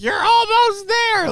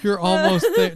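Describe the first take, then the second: First: Very high, loud, slow mock moan. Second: Louder, laughing through it; laughing quote. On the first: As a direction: moan it like a porn scene. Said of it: "you had to word like". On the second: Real, not acted. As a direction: cry it out between laughs. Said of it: "do not say".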